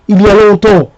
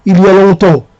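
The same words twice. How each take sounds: The two takes are said the same way.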